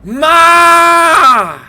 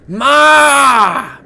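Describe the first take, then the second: First: It is yelled much more loudly. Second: It is called out at normal loudness.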